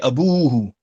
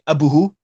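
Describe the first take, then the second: First: The vowel after the b is long. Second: The vowel after the b is short. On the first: The speaker calls it right. "we say abuhu" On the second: The speaker calls it wrong. "We don't say abuhu"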